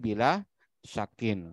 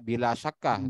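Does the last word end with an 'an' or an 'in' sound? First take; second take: in; an. First: The last word ends with an 'in' sound. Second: The last word ends with an 'an' sound. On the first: The speaker calls it right. "tapi bila syakin seperti itu" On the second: The speaker calls it wrong. "jangan dibaca bila syakah, nggak bisa"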